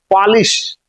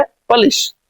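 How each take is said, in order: First: पॉलिश said with an open 'aa' first vowel, like 'paalish'; पॉलिश as in shoe polish, open first vowel; shoe polish pronunciation. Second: पॉलिश said with a short neutral first vowel, like 'pəlis'; पॉलिश for the common noun, short first vowel; Polish pronunciation. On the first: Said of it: "तो actual उसका उच्चारण है". (पॉलिश जूते वाला, पहला स्वर खुला 'पा') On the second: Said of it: "और इसका है पॉलिश". (पॉलिश छोटे 'प' से, जैसे 'पलिस') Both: Shown as a demonstration.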